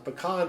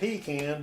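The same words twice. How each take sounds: First: It is said in a non-Southern way. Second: It is said in a Southern way.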